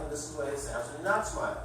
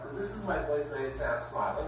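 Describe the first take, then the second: First: Said in the usual way. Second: A hint of a smile in the voice; mild demo of a smiling phone voice. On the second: Shown as a demonstration. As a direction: let the smile come through as you speak. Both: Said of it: "here's what I'm gonna make a fool out of myself".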